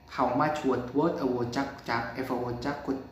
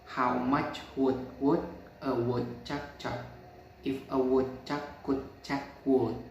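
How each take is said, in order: First: It is said fast. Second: It is said slowly.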